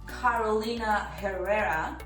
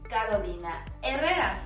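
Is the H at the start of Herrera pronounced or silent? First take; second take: pronounced; silent. First: The H at the start of Herrera is pronounced. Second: The H at the start of Herrera is silent. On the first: The speaker calls it wrong. "often mispronounced as" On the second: The speaker calls it right. "the H is silent, completely silent"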